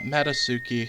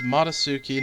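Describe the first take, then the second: First: The first vowel sounds like 'eh'. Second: The first vowel sounds like 'ah'. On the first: The speaker calls it wrong. "not Metasuki" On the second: The speaker calls it right. "I know that it's Matasuki"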